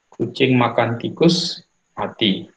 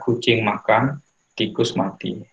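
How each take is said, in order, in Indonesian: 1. Ada jeda setelah kata tikus. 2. Ada jeda setelah kata makan. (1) "Gara-gara memakan tikus, kucingnya mati" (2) "kita jeda kucing makan, tikus mati"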